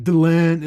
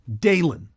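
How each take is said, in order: First: The name is said with its normal emphasis. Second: The name is said with an altered emphasis. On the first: The speaker calls it right. "It wasn't like Delenn" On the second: The speaker calls it wrong. "how she pronounced the name Delenn? ... she just accentuated a certain part of it"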